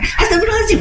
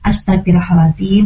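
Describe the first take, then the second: First: It is said in a panicked, hurried tone. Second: It is said calmly with controlled breathing.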